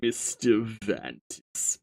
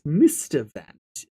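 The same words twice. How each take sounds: First: Said in the usual way. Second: Voice attempt. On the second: Shown as a demonstration. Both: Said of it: "find a voice because it's been a while".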